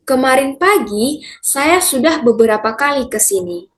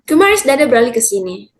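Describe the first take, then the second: First: It is spoken clearly at a normal pace. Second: It is spoken very fast with syllables swallowed.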